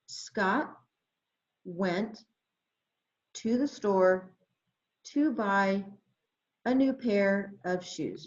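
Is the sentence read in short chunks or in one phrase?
short chunks. It is read in short chunks with pauses. "phrasing with pencil tracking"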